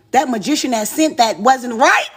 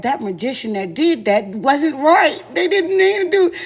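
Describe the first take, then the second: First: Said in the usual way. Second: Half-laughing creature impression; mocking a creature that can't talk right. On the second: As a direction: drag the words out like a tongue-tied beast. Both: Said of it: "he looked like he talked like that".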